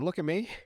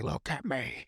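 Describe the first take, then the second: First: It is said in Mister Meeseeks' voice. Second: It is said in the Joker's voice.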